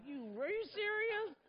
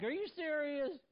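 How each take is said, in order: First: High-pitched disbelieving cry; incredulous. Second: Higher, louder exasperated disbelief; incredulous again. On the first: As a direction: squeal it in mock disbelief. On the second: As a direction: ask it half-laughing, can't believe it. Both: Retold or imitated. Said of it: "I'm like".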